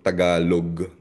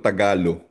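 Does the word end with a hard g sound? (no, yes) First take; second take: yes; no. First: The word ends with a final g sound. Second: The word ends without a final g sound. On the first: "nahihirapan silang i-pronounce yung he sa dulo" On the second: "mas ginagamit yung walang G sa dulo"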